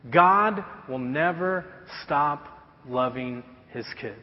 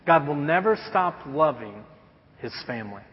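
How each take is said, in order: First: Slow, deliberate stress on every word; slow emphatic point. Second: Restated with weight on God, fading at the end; repeated point. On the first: Pastor stating the second point to the church, slow and weighty. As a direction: lay each word down slowly, God first. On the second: Pastor repeating the point to the congregation, fading emphasis. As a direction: say it again, leaning on God. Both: Shown as a demonstration. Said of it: "this leads us to our second point".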